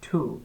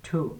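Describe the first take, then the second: First: The T is aspirated, with a puff of air. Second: The same.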